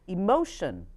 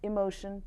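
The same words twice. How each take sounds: First: The pitch moves up and down melodically. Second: The pitch stays flat without melody. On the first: The speaker calls it right. "You would say emotion" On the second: The speaker calls it wrong. "not emotion"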